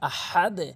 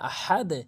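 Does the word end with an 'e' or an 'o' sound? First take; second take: e sound; e sound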